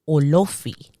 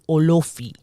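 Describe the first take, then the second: First: The O sounds are strongly emphasized. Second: The same.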